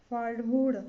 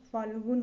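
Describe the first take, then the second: First: फाल्गुण ending on a curled-back N, louder; wrong retroflex N. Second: फाल्गुन ending on plain N; correct dental N. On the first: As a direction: say फाल्गुण as "phalguṛ". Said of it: "फाल्गुन होता है". (फाल्गुण के अंत में "ण") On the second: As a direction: say फाल्गुन as "phalgun". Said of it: "होता है". (फाल्गुन के अंत में "न") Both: Shown as a demonstration.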